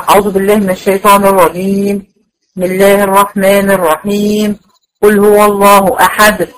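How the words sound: There is a pause after each of the three phrases. Each part is recited separately. "كل واحده لوحدها"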